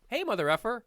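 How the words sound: It is said in a warm, affectionate tone. The insult is meant fondly. "in an endearing term like"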